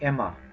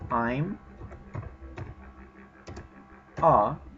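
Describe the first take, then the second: First: The two words run together as one. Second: The two words are said separately. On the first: "you can say Emma" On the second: "instead of saying I'm a"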